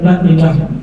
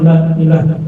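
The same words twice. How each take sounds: First: The vowel of the first word is kept short. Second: The vowel of the first word is lengthened. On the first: The speaker calls it wrong. "jangan terbaca la ilaha, kedada kedada dipanjangkan sama sekali, itu keliru" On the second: The speaker calls it right. "Lahnya itu panjang, panjang itu walaupun sedikit tapi ada dipanjangkan"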